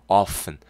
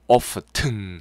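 First: The t sound is silent in the middle. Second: The t sound is pronounced in the middle. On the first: The speaker calls it right. "f 발음" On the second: The speaker calls it wrong. "t 발음 안 됩니다. often 하시면 안 됩니다"

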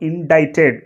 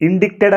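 First: No 'k' sound is heard in the middle. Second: A 'k' sound is heard in the middle. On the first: The speaker calls it right. "అక్కడ సి అనేది silent letter" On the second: The speaker calls it wrong. "ఇండిక్టెడ్ అని చదువుతుంటారు, కానీ అది ఇండిక్టెడ్ కాదు"

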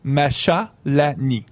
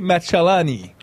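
First: The name is said with a French accent. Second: The name is said with an Italian accent. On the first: "si je le prononcerais à la française" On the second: "avec un petit accent italien"

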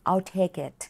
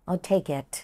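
No difference in how they are said.

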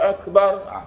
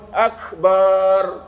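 First: The ba syllable is kept short. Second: The ba syllable is held long. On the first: The word means greatest. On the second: The word means a drum or tambourine.

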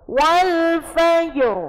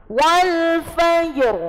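Both takes have the same delivery.

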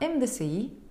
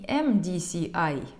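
First: The letters are named the French way. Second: The letters are named the English way. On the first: The speaker calls it right. "произношу я его на французский манер" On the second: The speaker calls it wrong. "Не MDCI"

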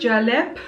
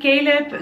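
First: The name is pronounced the Turkish way. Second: The name is pronounced the usual English way. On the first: The speaker calls it wrong. "here in Turkey, they would say Caleb" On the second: The speaker calls it right. "Caleb sounds very sweet"

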